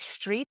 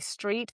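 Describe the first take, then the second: First: The word begins with a sh sound. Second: The word begins with a plain s sound.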